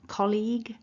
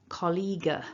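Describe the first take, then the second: First: The word ends cleanly on the g sound. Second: An extra vowel sound follows the final g. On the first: The speaker calls it right. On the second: The speaker calls it wrong. "No uh"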